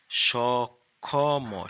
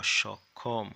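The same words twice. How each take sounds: First: Drawn out very slowly and loudly, syllable by syllable; teacher sounding out সক্ষম very slowly and loudly; slow spelling demo. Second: Said in the usual way. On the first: Shown as a demonstration. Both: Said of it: "দন্তে স".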